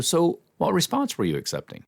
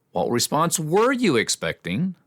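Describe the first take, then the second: First: Said in the usual way. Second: "were" stressed high and drawn out; accusing question, leaning hard on "were"; accusatory. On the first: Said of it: "as opposed to". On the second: Shown as a demonstration. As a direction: challenge them, pitch jumping up on "were". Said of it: "tone makes it a little accusatory".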